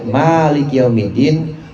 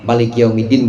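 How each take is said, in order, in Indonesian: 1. Vokal pertama diucapkan panjang. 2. Vokal pertama diucapkan pendek.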